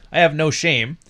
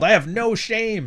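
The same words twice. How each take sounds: First: Said in the usual way. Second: High, slow, smug mockery; a mocking imitation of a shameless streamer; mocking Sneeko's smug line. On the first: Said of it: "It's like, no". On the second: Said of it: "act like, uh, Sneeko".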